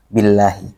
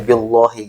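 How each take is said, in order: First: The l sound is light and thin. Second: The l sound is heavy and dark. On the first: The speaker calls it right. "tapi billahi" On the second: The speaker calls it wrong. "bukan dibaca billahi gitu ya"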